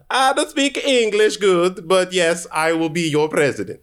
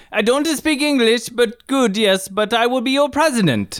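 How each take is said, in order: First: A light put-on Italian accent, higher; hammed-up broken English, Italian accent; mock Italian accent. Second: High hammed-up Italian accent; over-the-top Italian accent in broken English. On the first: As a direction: play the foreign candidate with a hint of Italian. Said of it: "That's Borat". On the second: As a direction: deliver it like a proud Italian candidate, pitched up. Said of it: "Italian tiebreaker".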